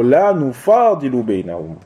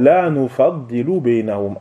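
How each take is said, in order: First: نفاضل with a long drawn fa; نفاضل read as nu-FAA-di-lu, stretched a; second variant reading. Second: نفضل with a short fa and doubled dad; نفضل read as nu-FAD-di-lu, short a; first variant reading. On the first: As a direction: say نفاضل as nufaadilu, single d. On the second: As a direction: say نفضل as nufaddilu, leaning on the double d. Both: Shown as a demonstration. Gives two readings of one word.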